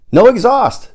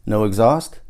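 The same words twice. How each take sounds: First: Much higher and louder, "No exhaust!" falling hard on "exhaust"; excited confirmation. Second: Rising, unsure "No exhaust?" with a lift on "exhaust"; doubtful question. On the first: Paul answering his friend's doubt, thrilled "No exhaust!". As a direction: fire back "No exhaust!" like a triumphant reveal. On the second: Listener checking the claim, doubtful "No exhaust?". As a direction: ask "No exhaust?" as if you can't quite believe it. Asking in disbelief. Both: A narrator's reading.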